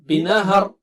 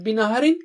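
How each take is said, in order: First: The word ends on a bare consonant. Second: The word ends with a vowel plus n. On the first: The reader stops on this word. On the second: The reading continues past this word.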